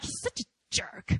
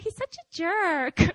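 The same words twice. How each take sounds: First: It is said in a harsh, mean tone. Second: It is said in a sweet, affectionate tone. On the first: The person is being insulted. "it just sounds so mean" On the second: The person is being teased fondly. "unless, like, you're really sweet"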